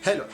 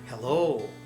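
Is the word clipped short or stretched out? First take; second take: clipped; stretched. First: The word is said quickly and cut short. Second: The word is stretched out and drawn long. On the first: "like quick, fast, ... We cut the word" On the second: "American people say it like this"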